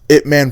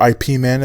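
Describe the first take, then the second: First: Ip is said as one short word. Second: Ip is spelled out as two letters.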